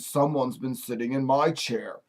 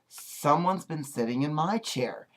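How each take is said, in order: First: It is said in a plain, ordinary voice. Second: It is said in a sweet little voice.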